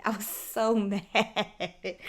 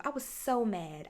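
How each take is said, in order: First: Repeating how mad she was, now laughing; laughing mid-sentence. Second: Said in the usual way. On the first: Real, not acted. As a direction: laugh breaks into the word mad. Repeats line, laughing through it.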